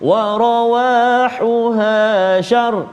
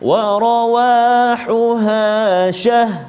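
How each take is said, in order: First: The last word ends with only an r sound. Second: The last word ends with only an h sound. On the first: "ha pula yang hilang" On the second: "ra hilang"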